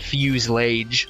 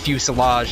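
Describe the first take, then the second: First: The word is said with two syllables. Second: The word is said with three syllables. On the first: The speaker calls it wrong. "not fuse-lage" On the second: The speaker calls it right. "Found out that it was actually pronounced fuselage"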